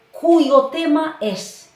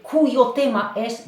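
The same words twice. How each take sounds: First: "cuyo tema es" said slowly and louder, stress on "cu"; teacher dictating a phrase; slow model phrase. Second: "cuyo tema es" said again slowly, stress on "cu"; teacher repeating for memory; repeated model phrase. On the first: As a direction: spell it out slowly for memorising. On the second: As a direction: repeat it slowly so they learn it. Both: Shown as a demonstration. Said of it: "vous l'apprenez par cœur".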